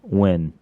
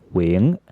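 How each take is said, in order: First: The name is said with an American accent. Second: The name is said with a Vietnamese accent. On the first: "the Americanized way to say it" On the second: "with the Vietnamese accent is Wing"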